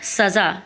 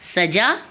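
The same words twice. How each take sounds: First: The word starts with a z sound. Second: The word starts with a j sound. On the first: It means punishment. "नुक्ता लगाने से अर्थ में परिवर्तन आ गया, अर्थात सजा" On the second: It means decoration. "अब हिंदी में सजा का मतलब सजावट हो गया"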